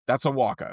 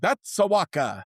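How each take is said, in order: First: It is said in his plain accent. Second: It is said in an Italian accent.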